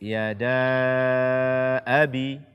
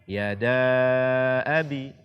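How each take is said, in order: Both takes have the same delivery.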